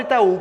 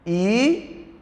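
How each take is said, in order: First: Said in the usual way. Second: "Itaú" split into separate syllables with long pauses. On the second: Shown as a demonstration. Teacher showing the syllable division, "Itaú" in separated syllables. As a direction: say "Itaú" slowly, pausing after each syllable. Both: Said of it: "como é a separação?".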